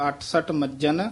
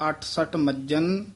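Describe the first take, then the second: No difference in how they are said.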